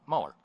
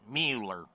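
First: The first syllable sounds like 'muh'. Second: The first syllable sounds like 'mew'. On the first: This is the usual way to say the name. "but Mueller" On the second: This is how one side of politics says the name. "As in the babes mewling and puking in their mother's arms"

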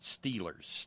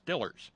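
First: Standard pronunciation with a long 'ee' vowel. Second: Western Pennsylvania pronunciation with a short 'i' vowel.

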